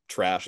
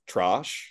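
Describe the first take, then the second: First: Said in the usual way. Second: "trosh" for "trash", British-style broad vowel; drawn-out "trosh", mimicking Adelaide speech; Adelaide pronunciation. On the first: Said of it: "kinda sounds more like Britain". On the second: Shown as a demonstration. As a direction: say "trosh" with an open, rounded "ah". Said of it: "Adelaide kinda sounds more like Britain".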